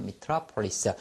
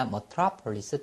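First: Metropolis starting with "mi", mi-TRA-po-lis; first vowel of metropolis as a clear "ih"; pronunciation variant. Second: Metropolis starting with "muh", muh-TRA-po-lis; first vowel of metropolis relaxed to "uh"; pronunciation variant. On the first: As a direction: say metropolis as "mih-TRAH-puh-lis". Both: Shown as a demonstration. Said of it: "두 개 다 발음이 됩니다".

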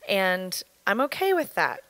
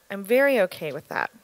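First: Said in the usual way. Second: Very leaned on, falling finish; stress on very. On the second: Real, not acted. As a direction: push the word very, then settle.

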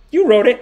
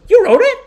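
First: Higher, louder mock disbelief; imitated astonishment. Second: Very high, loud mock shriek of disbelief; imitated shrieking astonishment. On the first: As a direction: ask it loudly, as if stunned by the news. Makeup artist astonished, acted. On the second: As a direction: shoot way up high, hammed-up shock. Second person even more astonished.

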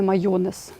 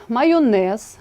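First: "майонез" stressed early, on ЙО: маЙОнез; wrong stress. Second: "майонез" stressed on final НЕЗ; stress on last syllable. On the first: Teacher gives the form to avoid, маЙОнез. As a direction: show the mistake with ЙО stressed in майонез. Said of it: "а не". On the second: Teacher models correct word, stressing НЕЗ in майонез. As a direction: lean on the ending: майоНЕЗ. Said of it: "а не майонез". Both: Shown as a demonstration.

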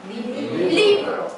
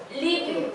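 First: 리브로 very slow, higher, syllable by syllable; slow demo reading. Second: Said in the usual way. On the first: Shown as a demonstration. Teacher reads a new word slowly to learners. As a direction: stretch out 리-브-로 for the class. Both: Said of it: "읽어볼까요".

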